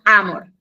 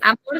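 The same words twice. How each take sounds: First: The stress is on the first syllable. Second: The stress is on the second syllable. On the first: The speaker calls it right. "su acentuación, el sonido fuerte en la A" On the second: The speaker calls it wrong. "no es"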